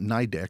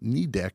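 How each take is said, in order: First: The first syllable sounds like 'nye'. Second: The first syllable sounds like 'knee'. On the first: The speaker calls it wrong. "people commonly call it NIDEC, which is wrong" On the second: The speaker calls it right. "we're saying knee deck"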